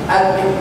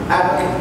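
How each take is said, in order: The two takes are said the same way.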